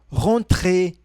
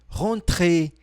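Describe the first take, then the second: Both takes have the same delivery.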